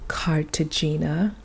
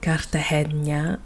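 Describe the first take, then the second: First: The name is pronounced in a French way. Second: The name is pronounced in a Spanish way. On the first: The speaker calls it right. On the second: The speaker calls it wrong.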